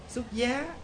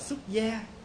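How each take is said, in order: First: The last syllable has a rising tone. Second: The last syllable has a level tone. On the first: Getting married. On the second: Leaving home to become a monk.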